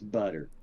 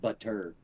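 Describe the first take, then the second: First: The middle consonant sounds like a D. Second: The middle consonant is a clear T sound. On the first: "It's a D instead of a T" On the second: "we don't pronounce the T's like butter"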